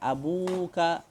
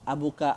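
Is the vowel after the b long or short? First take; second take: long; short. First: The vowel after the b is long. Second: The vowel after the b is short. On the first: "yang lebih tepat ialah abuka... Kita panjangkan dia" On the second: "kita boleh baca abuka"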